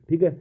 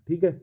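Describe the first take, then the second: Both takes have the same delivery.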